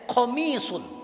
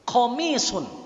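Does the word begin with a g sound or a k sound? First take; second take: k sound; k sound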